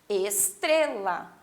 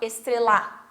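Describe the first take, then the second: First: The stress is on the middle syllable. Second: The stress is not on the middle syllable. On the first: The speaker calls it right. "o tre fica mais forte" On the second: The speaker calls it wrong. "A gente não fala estrela"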